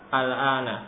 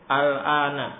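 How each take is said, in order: The two takes are said the same way.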